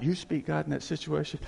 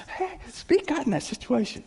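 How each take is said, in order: First: Said in the usual way. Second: Higher, cheerful call to action; imitated carefree cheer; happy pastor. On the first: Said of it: "This is how he would say it". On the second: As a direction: pipe up happily, imitating an upbeat pastor. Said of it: "He gets happy".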